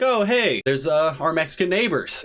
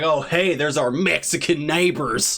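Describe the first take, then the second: First: It is said in a plain, friendly tone. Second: It is said in a sneering, contemptuous tone. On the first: The word is used neutrally. "like I've seen somebody be like" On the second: The word is used as an insult. "And then there's the guys like"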